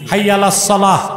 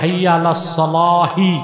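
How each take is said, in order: First: The last word stops short with no vowel. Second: The last word ends with an extra short vowel. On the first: The phrase is ended with a pause. "ছেড়ে পড়বেন সাকিন দিয়ে" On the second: The phrase is joined to what follows. "মিলায় পড়লে হবে"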